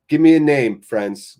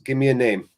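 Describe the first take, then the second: First: Calls out loud for a name; rally the chat with a loud call; shouting to chat for a name. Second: Said in the usual way. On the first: Real, not acted. Calling on chat for names.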